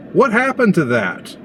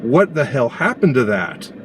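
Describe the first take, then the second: First: Much higher, disbelieving repeat; incredulous. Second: Said in the usual way. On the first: Real, not acted. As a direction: ask it again in real disbelief. Exasperated repeat of the question.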